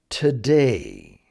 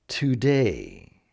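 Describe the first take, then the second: The two takes are said the same way.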